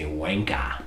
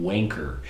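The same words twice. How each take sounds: First: British "Wanka" with an open final "a", no R; British accent. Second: Said in the usual way. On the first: Shown as a demonstration. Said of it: "In British English, they say". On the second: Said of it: "it's not an American English term".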